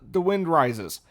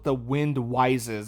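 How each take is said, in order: First: The word Rises starts with an r sound. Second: The word Rises starts with a w sound.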